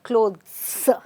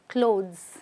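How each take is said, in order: First: The final sound is a hissing S. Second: The final sound is a buzzing Z. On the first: The speaker calls it wrong. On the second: The speaker calls it right. "the S sounds like a Z"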